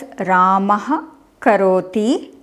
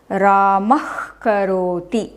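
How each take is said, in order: First: The visarga is said as a separate syllable. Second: The visarga is joined into the next word. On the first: "we can read this as" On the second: "we can jo join and pronounce them as"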